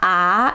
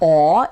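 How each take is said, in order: First: The vowel is bright, close to a front ah. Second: The vowel is dark, rounded toward aw. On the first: "It's not ah" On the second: "it's not aw"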